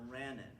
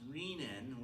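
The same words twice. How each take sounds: First: The first vowel is a short eh sound. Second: The first vowel is a long ee sound. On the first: The speaker calls it wrong. "not renin" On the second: The speaker calls it right. "It's pronounced renin with a long E"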